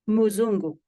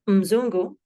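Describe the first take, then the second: First: A vowel sound follows the m. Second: The m runs straight into the z. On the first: "there is a vowel following the m sound" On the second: "Rather than mzungu"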